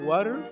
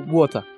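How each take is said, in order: First: It is said with an English pronunciation. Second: It is said with a Japanese pronunciation.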